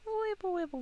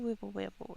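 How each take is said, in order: First: Silly sing-song. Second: Said in the usual way. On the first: Pretend. Playful noise while painting.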